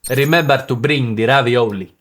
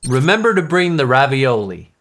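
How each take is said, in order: First: It is said in an Italian accent. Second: It is said in an American accent.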